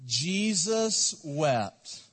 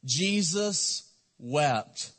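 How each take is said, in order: First: Very slow, drawn out; slow unison recital. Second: Very slow, each word weighed; slow and solemn. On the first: Pastor leading the church in reciting, slow. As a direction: say it together with the congregation. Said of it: "Let's say it with me". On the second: Pastor reciting the verse to his church, very slow. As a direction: let the verse sink in slowly. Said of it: "It's two words". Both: Shown as a demonstration.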